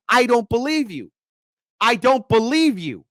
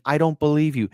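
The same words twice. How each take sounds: First: Angry repeat. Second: A mild retold demand, near plain; demanding, lightly voiced. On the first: Retold or imitated. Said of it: "You have to get angry". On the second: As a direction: quote her demand without pushing. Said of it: "She is demanding".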